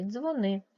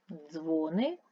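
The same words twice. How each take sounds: First: Дзвони with a stressed final -ни; stress on second syllable. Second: Дзвони with a long, stressed Дзво-; stress on first syllable. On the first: Teacher comparing two words, second-syllable stress on дзвони. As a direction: hit the end of дзвони. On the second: Teacher comparing two words, first-syllable stress on Дзвони. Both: Shown as a demonstration. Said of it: "Наголос може змінювати значення".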